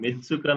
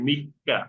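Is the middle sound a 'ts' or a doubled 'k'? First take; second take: ts; doubled k. First: The middle has a 'ts' sound and extra syllable. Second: The middle has a held, doubled 'k' sound. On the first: The speaker calls it wrong. "মিৎসুকা না" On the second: The speaker calls it right. "এটা হবে মিক্কা"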